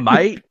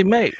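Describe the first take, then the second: First: "mate" sounding like "might"; Australian "mate". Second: "mate" with an ay vowel, British style. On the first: Showing friends the contrasting way, Australian "mate" like "might". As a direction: widen "mate" to an Aussie "might". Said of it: "not mate". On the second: Showing friends how Brits say it, British "mate". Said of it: "it's how they say mate". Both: Shown as a demonstration.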